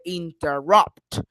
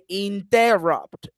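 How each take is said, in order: First: The stress falls on the last syllable. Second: The stress falls before the last syllable. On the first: The speaker calls it right. "At the end, in the third syllable" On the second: The speaker calls it wrong. "I don't say interrupt"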